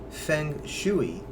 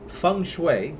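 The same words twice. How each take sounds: First: It is pronounced close to its written spelling. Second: It is pronounced unlike its written spelling. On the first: Some parts of the world say it this way. "you can actually call it feng shui" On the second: This is the formal way to say it. "the proper pronunciation"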